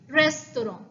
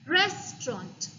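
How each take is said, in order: First: It is said with a French pronunciation. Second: It is said with a British English pronunciation. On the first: "French pronunciation" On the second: "the British pronunciation"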